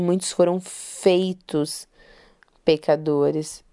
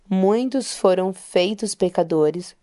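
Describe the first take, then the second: First: The word 'feitos' is given special emphasis. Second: The word 'feitos' gets no special emphasis.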